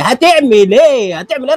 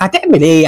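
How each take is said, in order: First: هتعمل ايه stretched slow and much higher; drawn-out high taunt. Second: Said in the usual way. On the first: Real, not acted. (هتعمل ايه ممطوطة بنبرة عالية ساخرة)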